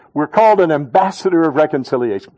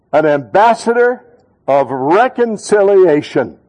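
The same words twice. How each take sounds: First: Said in the usual way. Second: Ambassador hit loud, reconciliation drawn out slowly; loud, slow call-and-response. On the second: Shown as a demonstration. Pastor leading church in unison, loud and slow. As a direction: lead the congregation in a loud, slow chant. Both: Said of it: "say it real loud with me".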